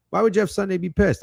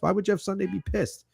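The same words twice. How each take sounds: First: Louder, insistent rhetorical question; louder repeat. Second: Said in the usual way. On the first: Shown as a demonstration. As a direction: push it harder the second time.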